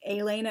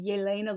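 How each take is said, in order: First: "Elena" opened with a plain vowel, no Y glide; naive misreading. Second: Said in the usual way. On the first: Shown as a demonstration. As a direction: say "Elena" as ay-LAY-na. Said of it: "looked like it would be pronounced".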